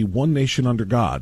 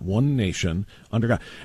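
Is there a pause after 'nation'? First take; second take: no; yes. First: It is said without a pause after 'nation'. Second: It is said with a pause after 'nation'.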